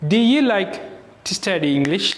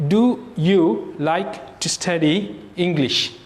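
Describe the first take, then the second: First: The small words are reduced to a weak 'uh'. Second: The small words keep full 'oo' vowels. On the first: The speaker calls it right. "ஊ வராது, ஏ வரும்" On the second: The speaker calls it wrong. "அவங்க டூ யூ like டு study இங்கிலீஷ்னு கேட்க மாட்டாங்க"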